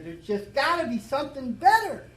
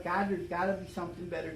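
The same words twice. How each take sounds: First: Plea to God, much higher and louder; retold cry to God. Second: Said in the usual way. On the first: Man in a bar crying out to God for something better, higher and louder plea. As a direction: cry it out, begging for a way out. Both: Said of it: "And I cried out".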